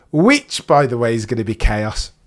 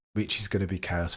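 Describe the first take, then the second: First: Loud chaos. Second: Quiet repeat. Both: Shown as a demonstration.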